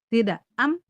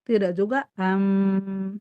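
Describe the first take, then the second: First: The final m is stopped short and held back. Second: The final m flows on and is drawn out.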